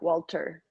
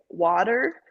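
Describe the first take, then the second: First: It is said with a British accent. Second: It is said with an American accent. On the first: "they would almost say, like" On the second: "here we'd say"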